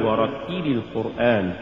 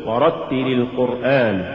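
First: ورتل القرآن with too much stress on تِّ; ورتل sounding feminine, accent on the ta; overstressed ta. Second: Said in the usual way. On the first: Shown as a demonstration. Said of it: "ولا تقل". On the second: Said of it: "قل".

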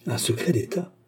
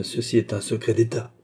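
First: "Un secret d'État?" raised into a question; echoed question. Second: Said in the usual way. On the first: A narrator's reading. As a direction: repeat "Un secret d'État?" with a rising end.

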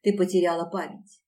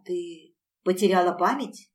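First: "потеряла память" as a verdict, falling; resigned statement. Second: "потеряла память" as a question, rising on память; dawning question. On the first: Woman accepting mistress's memory loss, resigned. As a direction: state it with doomed finality, no question. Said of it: "обречённо произнесла". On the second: Servant asking her mistress, questioning lift on "память". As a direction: ask it, voice lifting and louder on "память". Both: A narrator's reading.

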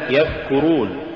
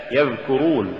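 First: يذكرون with a voiceless th; wrong th for dh. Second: يذكرون with a voiced dh; careful يذكرون with a clear dhal; correct dh sound. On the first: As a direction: demonstrate the error يذكرون as yathkurun. (يذكرون بالثاء بدل الذال خطأً) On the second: (يذكرون بذال مجهورة) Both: Shown as a demonstration. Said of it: "تقرأ لحنا".

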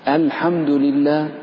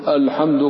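First: الحمد opening on a thin, clean "al"; light hamza. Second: الحمد starting on a dark, rounded o-like vowel; wrongly heavy hamza. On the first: Teacher models the correct form, الحمد with light hamza. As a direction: slowly say الحمد with a light front a. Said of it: "رققها ولا تفخمها". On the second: Teacher shows the mistake, الحمد with heavy hamza. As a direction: open الحمد with a thickened "ol". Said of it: "لا تقول". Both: Shown as a demonstration.

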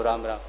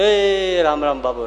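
First: Said in the usual way. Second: Drawn-out call to someone leaving; slow, slightly raised farewell call; calling out goodbye. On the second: Acted. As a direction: stretch the greeting and call it out. Parting greeting called out.

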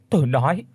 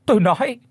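First: Said in the usual way. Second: High, loud cry of "tôi nói". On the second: A narrator's reading. Thu screams to stop the stick, high and loud. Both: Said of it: "thì cô hét lên".

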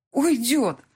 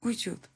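First: Уйдёт said louder and higher, pained; Уйдёт cried out as it hits her; Уйдёт rising in anguish; louder repeat. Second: Уйдёт said softly, to herself; Уйдёт whispered in disbelief; quiet repeat. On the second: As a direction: let Уйдёт sink in quietly. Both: Acted. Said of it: "Он уйдёт".

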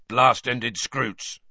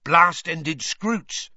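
First: Grunted. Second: Eager, slow and raised; said eagerly. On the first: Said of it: "grunted Hagrid". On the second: Hagrid eagerly correcting Rita, slow and raised. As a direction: correct her gladly and eagerly. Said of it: "Hagrid said eagerly". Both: A narrator's reading.

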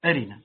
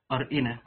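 First: أرنا lightened to a-ri-na, no hamza after the ra; hamza dropped. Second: أرئنا with a still ra, then a hamza with short i; hamza sounded. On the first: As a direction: glide straight from ra into short i in أرنا. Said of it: "وحذفت أي الهمزة تخفيفا". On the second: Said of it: "أر، هذه الراء ساكنة، إي الهمزة مكسورة". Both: Shown as a demonstration.

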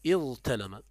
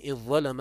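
First: اضطلم as iẓ-talama, held ظ then light t; original form. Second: اضظلم as iẓẓalama, one doubled ظ; merged form. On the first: Teacher gives the word's origin, اضطلم with light t. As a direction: say اضطلم keeping the t unemphatic. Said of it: "وأصله". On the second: Teacher reads out the example, اضظلم with doubled ظ. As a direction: say اضظلم with a long ظ, no t. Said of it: "ومن الظلم". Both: Shown as a demonstration.

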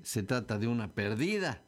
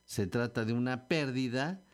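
First: Perdida said as per-DI-da; stress on DI. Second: Pérdida said as PÉR-di-da; pérdida stressed on PÉR. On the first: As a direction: draw out the DI of perdida. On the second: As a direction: punch the first syllable of pérdida. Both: Shown as a demonstration. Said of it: "tampoco es lo mismo decir".

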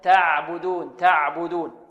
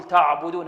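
First: تعبدون with a thin, flowing ع; careful, unthickened تعبدون; correct light pron. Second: تعبدون with a thickened ع; wrong heavy pron. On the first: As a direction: draw out تعبدون with a light first syllable. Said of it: "هذا خطأ، بل". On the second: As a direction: darken the first syllable of تعبدون. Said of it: "هذا خطأ". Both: Shown as a demonstration.

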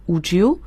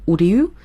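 First: "would you" run together as "wu-joo"; linked pronunciation. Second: "would you" with D and Y kept apart; unlinked pronunciation. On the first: Teacher showing learners how to link words, "would you" joined as "wu-joo". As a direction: blend the D and Y of "would you" into a J sound. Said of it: "would和you连读成would you". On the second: Teacher showing learners what to avoid, "would you" unlinked as "wood-yoo". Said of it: "而不要读成would you". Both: Shown as a demonstration.

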